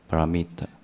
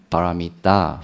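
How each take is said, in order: First: The final syllable is very weak. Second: The final syllable is pronounced fully. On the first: This is the local dialect form. "那个最后那个音变得很弱" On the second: This is the Sanskrit form. "梵文"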